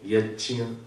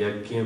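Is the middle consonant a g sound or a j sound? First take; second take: j sound; g sound. First: The middle consonant is a j-like sound. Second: The middle consonant is a g-like sound. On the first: This follows the Sanskrit pronunciation. The speaker calls it right. "जैसे मैं कहूंगा यज्ञ" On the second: This is how the listeners usually say it. The speaker calls it wrong. "आप क्या बोलते हैं? यज्ञ बोलते हैं, तो उसको ठीक कर लीजिएगा"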